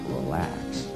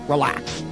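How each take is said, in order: First: The word is said slowly and drawn out. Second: The word is said quickly and rushed. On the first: The speaker calls it right. "Instead of relax" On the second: The speaker calls it wrong. "When most people say relax, they go"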